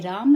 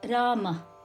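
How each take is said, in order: First: The name ends in a bare m sound. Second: The name is said with Sanskrit pronunciation. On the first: This is how Hindi speakers say it. The speaker calls it wrong. "Hindi speakers would say Ram" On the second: This is the original Sanskrit form. The speaker calls it right. "The correct pronunciation in Sanskritam is Rama"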